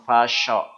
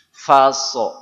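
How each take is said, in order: First: The middle consonant is an sh sound. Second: The middle consonant is a plain s sound. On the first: The speaker calls it wrong. "bukan fasho" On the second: The speaker calls it right. "jadi faso bukan fasho"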